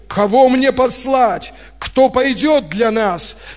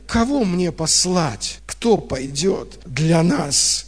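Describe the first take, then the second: First: It is said in a commanding, summoning tone. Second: It is said in a disappointed, reproachful tone. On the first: The question is an order or a call. "Раньше я как будто бы представлял по-другому" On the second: The question is a reproach that no one answers. "Да я услышал эту интонацию разочарования"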